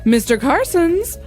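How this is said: It sounds like calling out to someone. The speaker is summoning the person. The speaker calls it wrong. "like she's calling him"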